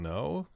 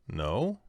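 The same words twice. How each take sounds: First: "No?" rising sharply high, as if asking; question inflection. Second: Said in the usual way. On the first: Shown as a demonstration. Coach showing a child's lie: "No?" pitched sharply up like a question. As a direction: say "No?" with a big upward lift, unsure. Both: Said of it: "Like, they're asking".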